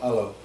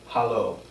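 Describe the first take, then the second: First: The word begins directly with the vowel. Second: The word begins with an audible H sound.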